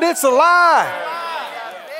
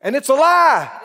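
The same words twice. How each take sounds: First: It's a lie stretched very slow, high and loud; drawn-out shout. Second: Loud declaration. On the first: Preacher hammering his point home, slow drawn-out shout. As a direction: hold every word of It's a lie long and shouted. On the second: Preacher denouncing false teaching, loud firm declaration. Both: Acted. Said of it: "I said".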